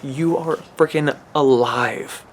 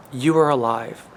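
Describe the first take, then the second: First: Slow, heavy stress on "freaking alive"; drawn-out emphatic "freaking". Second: Said in the usual way. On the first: Real, not acted. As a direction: lean hard and slow into "You are freaking alive". Repeats line, stressed then plain.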